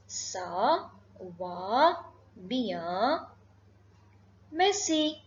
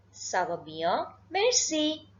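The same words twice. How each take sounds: First: "Ça va bien, merci" broken by long pauses; word-by-word demonstration. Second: Said in the usual way. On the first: Shown as a demonstration. Teacher modelling the reply for learners, word-by-word demonstration. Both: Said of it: "you have to say".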